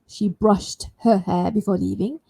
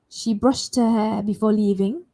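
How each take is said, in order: First: Each word is said clearly and separately. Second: The T sound runs straight into the next word. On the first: "If you want to say it nice and clear one by one" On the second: "I can carry the sh T with the next sound, her"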